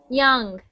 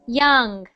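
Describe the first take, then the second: No difference in how they are said.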